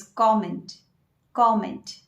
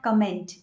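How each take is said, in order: First: Comment slowly as KOM-ent, stress first; correct pronunciation. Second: Comment stressed late, kə-MENT; wrong pronunciation. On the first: Teacher giving the correct form slowly, comment as KOM-ent. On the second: Teacher showing the wrong form, comment as kə-MENT. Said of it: "it's not". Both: Shown as a demonstration.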